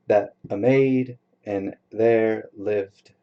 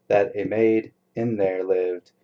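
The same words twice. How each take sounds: First: Slow, measured line leaning on "maid"; "maid" stressed in a slow scanning read; slow scansion. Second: Said in the usual way. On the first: Shown as a demonstration. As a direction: scan the beat word by word. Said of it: "repeated line, scanned slowly". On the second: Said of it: "repeated line, read normally".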